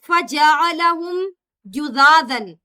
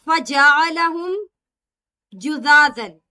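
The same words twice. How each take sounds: No difference in how they are said.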